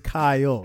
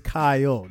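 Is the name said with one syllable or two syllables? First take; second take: two syllables; two syllables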